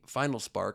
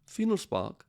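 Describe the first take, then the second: First: The name is said in a plain English accent. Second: The name is said in a put-on foreign accent.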